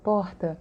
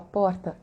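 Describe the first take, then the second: First: Porta with the R made back in the throat, Rio style; carioca R. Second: Porta with the tapped São Paulo R on the tongue tip. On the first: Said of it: "quando a gente fala porta". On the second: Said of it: "localizam a gente em São Paulo". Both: Shown as a demonstration.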